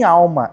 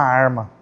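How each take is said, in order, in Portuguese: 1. A consoante do meio é um som de L. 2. A consoante do meio é um som de R. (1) "Minha avó não falava nem alma" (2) "era pior, era uma arma... quando ela falava errado"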